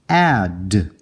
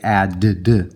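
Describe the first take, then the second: First: The final d sound is said once. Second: The final d sound is said twice. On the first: The speaker calls it right. "It's just add" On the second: The speaker calls it wrong. "We don't say add, d, do we?"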